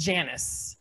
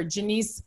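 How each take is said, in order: First: "Janice" said American-style, JAN-iss; "Janice" as plain English JAN-iss; American pronunciation. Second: "Janice" said Spanish-style, like juh-NEES; "Janice" as a Puerto Rican name; Spanish pronunciation. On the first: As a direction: stress the first syllable of "Janice", short flat a. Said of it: "in America, that name is Janice". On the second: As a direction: stress the end of "Janice" with a long ee. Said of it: "They spelled it like that". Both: Shown as a demonstration.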